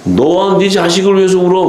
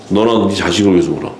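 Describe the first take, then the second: First: High, declaimed retold command; mock stern rebuke. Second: Low, understated retold command; retold stern rebuke. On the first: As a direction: act out a stern order, pitched well up. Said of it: "주님도 냉정하시지". (높은 음으로 엄하게 명하는 흉내) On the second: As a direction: drop the pitch and retell the stern order plainly. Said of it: "그냥 막 뭐라 그러잖아요". (낮고 담담하게 엄히 이르는 흉내)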